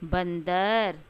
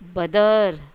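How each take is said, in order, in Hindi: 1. पहले अक्षर में अनुनासिक ध्वनि है। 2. पहले अक्षर में कोई अनुनासिक ध्वनि नहीं है। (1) "जब हम इनके ऊपर अनुस्वार लगा देते हैं ... तो ये सही शब्द बोले जाते हैं" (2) "अगर ये ऊपर अंग की बिंदी ना हो तो हम कैसे इसका उच्चारण करेंगे?"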